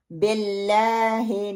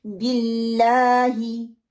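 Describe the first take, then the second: First: बिल्लाही as BELLAAHE with spread E; wrong vowels. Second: Slow BILLAAHI, pure I vowels; long held LAA in बिल्लाही, short clean I; correct pronunciation. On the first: Teacher warning learners off BELLAAHE, vowels spread. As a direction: widen both I vowels of बिल्लाही to E. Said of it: "नहीं पढ़ना". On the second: Teacher showing what to do, drawn-out BILLAAHI. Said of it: "मैंने क्या करना है". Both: Shown as a demonstration.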